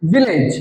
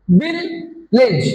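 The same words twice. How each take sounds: First: Said in the usual way. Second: ভিলেজ as VIL, pause, LAGE, very slow; broken into syllables. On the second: Shown as a demonstration. Teacher shows two syllables to class, ভিলেজ split slowly. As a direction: stretch ভিলেজ into two separate beats. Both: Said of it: "দুইবার উচ্চারণ করতে হয়".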